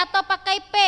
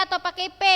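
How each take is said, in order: The two takes are said the same way.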